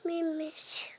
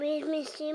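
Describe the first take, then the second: First: Softly whispered plea. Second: Said in the usual way. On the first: Real, not acted. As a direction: whisper it under the breath. Child pleading with mom.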